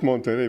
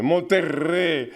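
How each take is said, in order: First: Said in the usual way. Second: "Monterrey" with a strongly trilled R; exaggerated rolled R. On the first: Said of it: "Not just Monterrey". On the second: Shown as a demonstration. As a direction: hit and roll the R in "Monterrey" hard. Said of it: "go to town on their R".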